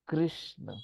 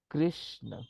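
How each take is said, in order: Both takes have the same delivery.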